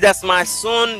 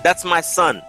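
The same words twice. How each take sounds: First: The vowel in 'son' is a nasal 'on' sound. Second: The vowel in 'son' is a plain 'uh' sound. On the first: The speaker calls it wrong. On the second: The speaker calls it right.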